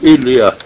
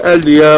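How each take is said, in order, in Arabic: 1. الكلمة تبدأ بالصوت 'i'. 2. الكلمة تبدأ بالصوت 'a'. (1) "ولا تقل إليا" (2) "وقل وقل أليا"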